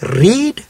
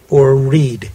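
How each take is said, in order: First: "read" said as reed with a long ee; "read" with a long ee and rising tune. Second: "read" said as red with a short e; "read" short like red, falling tune. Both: Shown as a demonstration. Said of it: "Was the first word".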